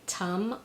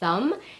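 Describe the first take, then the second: First: The word begins with a T sound. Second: The word begins with a TH sound. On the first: The speaker calls it wrong. "or as a T" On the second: The speaker calls it right. "I mean the sound, as in the word thumb"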